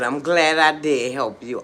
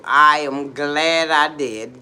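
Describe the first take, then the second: First: Loud affirmation. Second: "I am glad" drawn out slowly and very loud; emphatic affirmation. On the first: First of two emphatic statements. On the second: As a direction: stretch and punch "I am glad I did". Repeats it slower and stronger. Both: Real, not acted.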